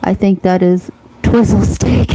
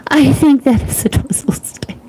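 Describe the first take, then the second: First: Said in the usual way. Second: Laughing. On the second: Real, not acted. Host rereading a viewer's comment to chat, laughing and higher.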